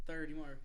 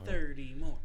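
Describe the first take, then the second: First: Said in the usual way. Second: Loud slogan. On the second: Acted. Chanting a podcast slogan.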